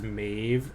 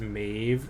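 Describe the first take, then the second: First: The vowel sounds like 'ay', as in Maeve. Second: The vowel sounds like 'ay', as in Maeve.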